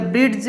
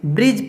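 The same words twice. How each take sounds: First: ब्रिज with an audible d before the j; d wrongly pronounced. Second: ब्रिज as "brij", no d before the j; silent d. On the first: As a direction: say ब्रिज as "brid-j". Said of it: "इस तरह ब्रिज नहीं पढ़ेंगे". (ब्रिज में ज से पहले ड की आवाज़) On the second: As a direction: leave the d out of ब्रिज, just "brij". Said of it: "ब्रिज पढ़ेंगे सिर्फ". (ब्रिज, ड की आवाज़ के बिना) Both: Shown as a demonstration.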